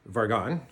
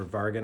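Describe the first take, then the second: First: "Vargon" said VAR-gon, rising, second syllable like "gone"; "Vargon" with an open o in the last syllable, ending on a rise; Vargon pronunciation. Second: "Vargan" said VAR-gan, falling, last syllable like "gun"; "Vargan" with a short flat a at the end, Canadian twang; Vargan pronunciation. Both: Shown as a demonstration. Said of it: "I don't know how to pronounce it properly".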